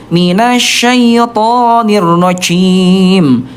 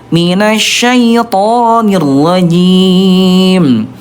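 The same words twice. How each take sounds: First: The j leaks air and sounds like ch. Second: The j is voiced with no escaping air. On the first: The speaker calls it wrong. "Yang ke satu" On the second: The speaker calls it right. "Yang kedua"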